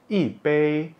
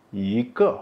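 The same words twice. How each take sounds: First: Yi drops, bei held high and level; falling yi, level bei. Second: I lifts, ke drops sharply; rising i, falling ke. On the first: Teacher explaining the rule, yi bei falling then high-level. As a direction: say yi bei with fourth then first tone. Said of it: "bei itu nada satu". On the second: Teacher explaining the rule, i ke rising then falling. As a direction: say i ke with second then fourth tone. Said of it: "ke itu nada empat". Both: Shown as a demonstration.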